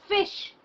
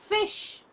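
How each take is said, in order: The two takes are said the same way.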